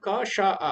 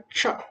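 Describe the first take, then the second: First: The three sounds are said one by one. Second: The three sounds are blended into one syllable. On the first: "अगर आप तीनों को जोड़ो क श आ" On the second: "तो इनको एक साथ अगर बोले क्ष"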